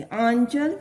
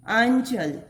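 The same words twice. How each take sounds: First: आंचल with the आं said through the nose; nasal vowel. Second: Said in the usual way. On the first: Shown as a demonstration. Teacher showing pupils the nasal आं in आंचल. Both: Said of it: "इसका उच्चारण नासिका द्वारा होना चाहिए".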